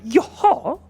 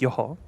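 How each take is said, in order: First: It sounds surprised, reacting to unexpected news. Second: It sounds like a calm, acknowledging mm-hmm. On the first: The listener finds the news unexpected. "Or you could tell me something surprising, and I'll be like, yoha" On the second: The listener is following along. "you could be telling me something. I'll be like, yoha, yoha. It's like, mm-hmm"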